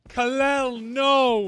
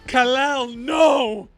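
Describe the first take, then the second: First: It is said with much less emotion. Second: It is said with strong, exaggerated emotion.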